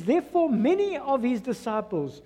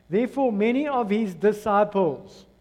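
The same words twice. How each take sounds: First: Said in the usual way. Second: Deliberate, measured scripture reading; read slowly. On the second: Shown as a demonstration. Preacher rereading the verse to the congregation, slowly. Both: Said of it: "I'm gonna read it slowly to you".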